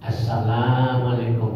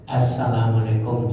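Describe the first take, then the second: First: The vowel in 'salam' is held long. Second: The vowel in 'salam' is cut short. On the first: Peace be upon you. The speaker calls it right. "selamatlah kamu" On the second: The greeting's meaning is distorted. The speaker calls it wrong. "janjang untuk kamu"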